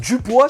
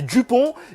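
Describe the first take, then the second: First: The name ends with a 'wa' sound. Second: The name ends with an 'on' sound. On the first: The speaker calls it wrong. "il va te dire Dupois" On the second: The speaker calls it right. "ça va s'appeler Dupont"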